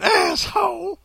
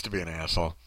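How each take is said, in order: First: High-pitched cartoon maid; hammed-up high character voice; put-on maid voice. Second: Said in the usual way. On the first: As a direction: flip up into a mock old-lady voice. Repeats the word in put-on voice.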